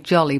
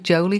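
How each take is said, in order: First: The first vowel is a short o. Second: The first vowel is a long o. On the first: The speaker calls it wrong. "I want to say Jolly" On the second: The speaker calls it right. "it's probably Jolie because it's only got one L"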